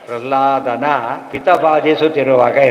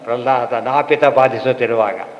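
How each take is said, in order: First: The break comes before 'pita'. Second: The break comes before 'napita'. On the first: The father was tormenting. The speaker calls it right. "ಇರೋದು" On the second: A barber was tormenting. The speaker calls it wrong. "ನಾಪಿತ ಅಂದರೆ ಕ್ಷೌರ ಮಾಡೋನಾಗಿಬಿಡುತ್ತೆ"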